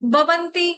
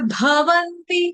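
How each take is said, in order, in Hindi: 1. पहला व्यंजन सादा, अल्पप्राण b है। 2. पहला व्यंजन महाप्राण bh है। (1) "बकरी वाला नहीं बोलेंगे, कोई ऐसे नहीं बोलेगा बवंती" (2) "ये ये है भवंती, भ भालू का"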